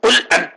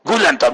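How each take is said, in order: First: The first word begins with a deep q sound. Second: The first word begins with a g sound. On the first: The speaker calls it right. "ഖാഫ് കൊണ്ട് പറയുന്നിടത്ത്" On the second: The speaker calls it wrong. "ആ ഗാന്റെ ശബ്ദത്തിൽ"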